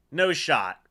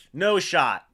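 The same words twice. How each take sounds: The two takes are said the same way.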